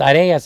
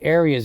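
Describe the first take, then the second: First: The name is given a Spanish pronunciation. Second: The name is given an English pronunciation. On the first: "it's Arias in Spanish" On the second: "but it's Arias in English"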